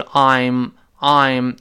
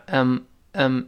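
First: "I'm" with the full vowel 'eye', stressed. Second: "M" as a weak, reduced "I'm"; unstressed "M". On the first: Teacher shows learners the strong form, stressed "I'm". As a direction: hit "I'm" slowly and fully. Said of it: "重读是I'm". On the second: Teacher shows learners the weak form, unstressed "M". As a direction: say "M" unstressed, just a short 'um' sound. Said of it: "如果不重读的话". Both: Shown as a demonstration.

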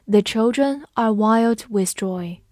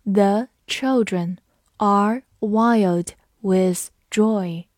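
First: Said in the usual way. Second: Slow, every word spaced out; slow model sentence; slow read. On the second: Shown as a demonstration. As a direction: say it slowly for students to repeat. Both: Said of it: "跟着我慢读一遍".

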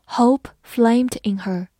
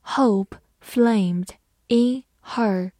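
First: Whole sentence read slowly in one flow; careful teacher reading, one phrase; smooth model reading. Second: Slow chunked reading for learners; phrased slow reading. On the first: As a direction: say it all in one slow line. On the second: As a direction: split into chunks with a pause after flamed. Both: Shown as a demonstration. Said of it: "好，慢读一遍。".

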